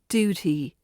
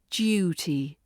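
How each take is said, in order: First: No y sound comes before the vowel. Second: A slight y sound comes before the vowel. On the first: The speaker calls it wrong. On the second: The speaker calls it right. "pronounced with a slight y sound at the beginning"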